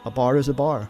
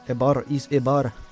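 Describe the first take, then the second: First: It is said in the speaker's plain accent. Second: It is said in a Russian accent.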